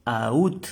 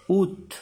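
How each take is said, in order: First: "aut" said loud as the wrong way; wrong reading. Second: "Ut" loud and high, oot; French août. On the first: Teacher showing the wrong way to say août. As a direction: say "aut" as the mistake. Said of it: "No decimos". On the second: Teacher giving the right French "Ut". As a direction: correct "Ut" for août. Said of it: "No decimos aut, no". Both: Shown as a demonstration.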